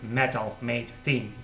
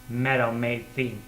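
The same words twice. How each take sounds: First: It is said in careful textbook style. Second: It is said in a native American English way. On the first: "instead of metal made thing" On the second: "or metal made thing instead of"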